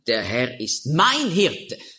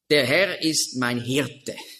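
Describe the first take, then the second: First: The stress is on the word mein. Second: The stress is on the word Hirte.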